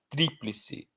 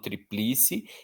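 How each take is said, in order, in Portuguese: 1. A tônica está na antepenúltima sílaba. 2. A tônica cai depois da antepenúltima sílaba. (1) "eu falo" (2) "eu não falo"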